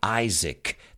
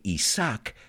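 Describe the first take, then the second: First: The name is said the English way. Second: The name is said the Spanish way. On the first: "we say Isaac. That's the pronunciation" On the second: "You guys say Isaac"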